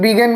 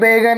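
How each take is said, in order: First: The first vowel sounds like 'big'. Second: The first vowel sounds like 'bag'. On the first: The speaker calls it right. "लेकिन बिगन बोला जाता है" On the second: The speaker calls it wrong. "वो बैगन जैसा दिख रहा है"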